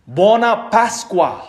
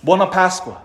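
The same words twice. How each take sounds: First: Buona Pasqua drawn out slowly with Italian vowels, BUO-na PAS-qua; slow Italian greeting. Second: Buona Pasqua said again at normal pace; just restate Buona Pasqua; plain repeat. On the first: Preacher teaching Italians' Easter greeting, slow and savoring. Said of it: "what do we say to one another". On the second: Preacher repeats the Italian greeting, plainly. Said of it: "The word isn't Easter". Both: Shown as a demonstration.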